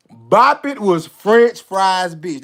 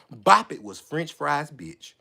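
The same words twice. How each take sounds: First: "Bop It" hit hard, each word drawn out; slow, punched-out "French Fry's bitch"; emphatic verdict. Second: Low, soft, slow statement; quiet, deliberate punchline; understated verdict. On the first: Second take, louder and drawn out. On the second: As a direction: drop the voice and draw it out. First take, lower and softer. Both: Retold or imitated.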